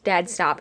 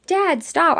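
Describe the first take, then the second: First: Said in the usual way. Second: High, contained mock yell; sharply pitched-up retold cry. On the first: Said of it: "I literally yelled". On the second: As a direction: call out as if yelling, without full volume. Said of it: "I literally yell it".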